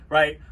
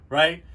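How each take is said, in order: No difference in how they are said.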